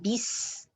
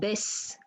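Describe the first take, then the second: First: The vowel after b is a full i. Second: The vowel after b sounds like e. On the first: The speaker calls it right. "ba kasra is B. Then bis" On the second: The speaker calls it wrong. "not bes"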